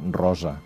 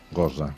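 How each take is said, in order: First: The first sound is a normal rolled r. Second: The first sound is a guttural, g-like r. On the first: This is the name's normal pronunciation. The speaker calls it right. "com es diu la logopèdia? Rosa" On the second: This is how the boy with the speech problem says it. The speaker calls it wrong. "Que ell li diu Gosa"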